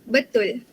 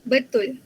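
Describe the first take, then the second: No difference in how they are said.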